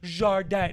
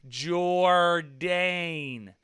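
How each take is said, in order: First: The name is said with a French pronunciation. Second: The name is said with an American pronunciation. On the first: The speaker calls it wrong. "No, I'm not fucking French" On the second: The speaker calls it right. "I'm American"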